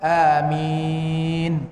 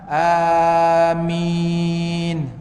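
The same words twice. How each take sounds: First: The vowels are held for a moderate length. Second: The vowels are stretched out long. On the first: "dua harakat" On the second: "dipanjangkan empat dan enam"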